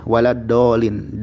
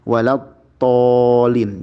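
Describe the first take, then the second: First: The word is said with a plain D sound. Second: The word is said with the Arabic dad sound.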